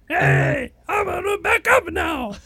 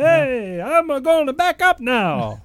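First: It is said as an old Italian woman. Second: It is said in an Italian Kermit voice.

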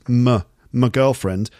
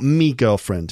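First: The first word is a short, reduced weak vowel. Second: The first word is a full, clear 'me'. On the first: The speaker calls it right. "I think it's common to reduce my to a weak form" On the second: The speaker calls it wrong. "So it's not a full-on me"

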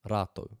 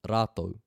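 No difference in how they are said.

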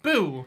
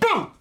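First: It is said quietly with little energy. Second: It is said loudly with big energy.

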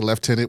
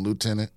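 First: The first syllable sounds like left. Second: The first syllable sounds like loo. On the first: This is how people in the UK say it. The speaker calls it wrong. "they say lieutenant" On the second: This is how the speakers themselves say it. The speaker calls it right. "which is way less cool than lieutenant"

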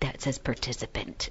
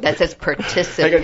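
First: It is whispered close to the microphone. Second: It is spoken in a normal voice.

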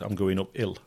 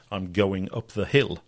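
First: Clipped local accent, with the h in 'hill' dropped. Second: Standard English, with the h in 'hill' pronounced. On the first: "Då hade jag sagt" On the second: "på korrekt engelska då säger man"

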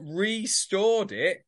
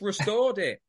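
First: The first syllable has a full 'ree' vowel. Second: The first syllable has a short reduced vowel. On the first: It was stored a second time. The speaker calls it wrong. "You haven't stored it once and then stored it again" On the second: It was brought back to its former condition. The speaker calls it right. "You've just restored it"

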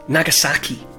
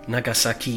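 First: Some syllables carry more stress than others. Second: Every syllable carries the same stress. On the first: "you're putting emphasis on certain syllables" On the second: "every syllable is equally stressed"

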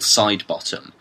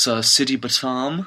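First: The surname is said plainly as side-bottom. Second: The surname is said in a fancy way, sidi-batam. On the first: The name as it is normally read. "my dad genuinely has a friend called Nigel Sidebottom" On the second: The name is made to sound cooler. "he says no, it's Sidi Batam"

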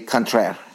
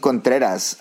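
First: The name is said with a French-style pronunciation. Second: The name is said with a Spanish-like pronunciation.

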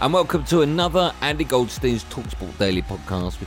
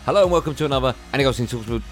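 First: It is said at a normal pace. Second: It is said quickly, rushed.

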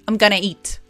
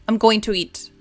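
First: Going to is reduced to a single word, gonna. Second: Going to is said as two full words. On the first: "que decimos gonna" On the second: "cuando quieres decir going to"

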